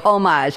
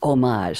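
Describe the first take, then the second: First: The word is said with the older, anglicized pronunciation. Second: The word is said with a French pronunciation. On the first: "people used to say homage" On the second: "the French pronunciation is homage"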